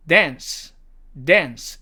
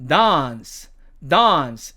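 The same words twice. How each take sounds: First: American "dance", front a; American demo of "dance"; American accent. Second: British "dance" with long ah; British demo of "dance"; British accent. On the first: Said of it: "미국식 발음으로는". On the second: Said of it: "영국식으로는". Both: Shown as a demonstration.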